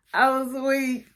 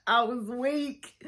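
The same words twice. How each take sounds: First: Said in the usual way. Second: Softer and slowed, spent from laughing; weak with laughter. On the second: Real, not acted. The vlogger recovers from a laughing fit, weak with laughter. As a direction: breathe out "I was weak" still laughing.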